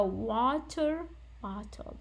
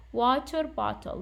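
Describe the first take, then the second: First: Slow demo, water stressed, bottle light. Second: Water stressed, bottle light. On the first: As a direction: stretch it out and lean on water in water bottle. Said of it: "is usually what we stress on". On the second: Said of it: "we stress on the first noun". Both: Shown as a demonstration.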